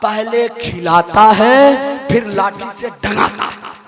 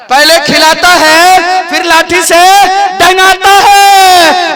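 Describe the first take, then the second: First: Hushed, low confiding voice; the wife confides a secret to the guest, hushed; secret whisper. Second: The preacher repeats the wife's words with slow emphasis; emphatic repeat. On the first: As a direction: lean in and tell the secret softly. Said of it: "बोला मेरा जो शौहर है ना". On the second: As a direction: spell it out, dwelling on डंगाता है. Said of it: "क्या करता है?". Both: Retold or imitated.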